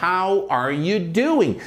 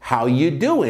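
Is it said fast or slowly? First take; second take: slowly; fast. First: It is said slowly, every word clear. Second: It is said fast, with "are" swallowed.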